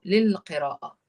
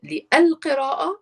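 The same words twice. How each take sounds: First: "للقراءة" said lil-qira'a, lams merged, falling tune; blended lam. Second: "للقراءة" said as lil-qira'a with the lams merged; blended lam. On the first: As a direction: say "للقراءة" again smoothly, lams fused, ending low. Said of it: "you have to go lil, you blend it". ("للقراءة" with the lams fused and a falling tune) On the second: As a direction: glide straight through the double lam in "للقراءة". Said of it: "you go للقراءة". ("للقراءة" with the two lams blended) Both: Shown as a demonstration.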